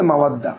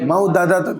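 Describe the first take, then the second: First: The two d sounds merge into one doubled d. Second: Two separate d sounds with a vowel between them. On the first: The speaker calls it right. "দাল দাল একদম করলে মাওয়াদ্দা" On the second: The speaker calls it wrong. "মাউ এমনি মাউ দাদা তুমি বলবা, তা না তো"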